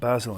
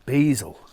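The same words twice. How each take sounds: First: It is said with a British accent. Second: It is said with an American accent.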